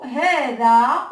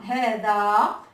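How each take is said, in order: First: Hada, a sounds held; Arabic word modeled. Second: Hada with a lower, drawn-out final a; long vowel shown. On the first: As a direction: spell out hada clearly. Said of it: "dans le troisième mot". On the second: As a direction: land on the elif in hada. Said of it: "on voit le elif à la fin". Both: Shown as a demonstration.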